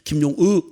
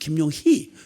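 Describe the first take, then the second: First: The last syllable is said softly without an h. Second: The last syllable is said strongly with an h. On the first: "그냥 김용의" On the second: "세게 발음은 김용희"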